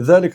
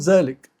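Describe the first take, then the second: First: The word begins with a 'dh' sound. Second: The word begins with a 'z' sound.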